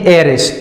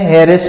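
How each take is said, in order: First: The word begins with a vowel sound. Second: The word begins with an h sound. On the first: The speaker calls it right. "इनका उच्चारण दोनों का शुरू हो रहा है ए से" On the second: The speaker calls it wrong. "हेयरिस नहीं है"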